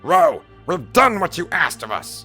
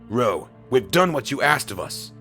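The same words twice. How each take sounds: First: It is read in Zetar's put-on character voice. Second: It is read in the speaker's plain voice.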